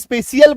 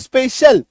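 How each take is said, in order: First: The ending is split into 'shee-al' syllables. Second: The ending is a single short 'shal' syllable. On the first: The speaker calls it wrong. "इसको भी स्पेशियल बोलिए" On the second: The speaker calls it right. "तो स्पेशल"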